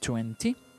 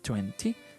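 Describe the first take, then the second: No difference in how they are said.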